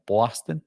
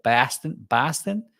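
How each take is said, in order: First: "Boston" with a rounded "aw"; New York-accented "Bawston". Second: "Boston" with an open "ah", rising; higher Boston-accented "Bahston". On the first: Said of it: "someone from New York would say". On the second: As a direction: demonstrate the Boston vowel in "Boston". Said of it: "someone from Boston would say". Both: Shown as a demonstration.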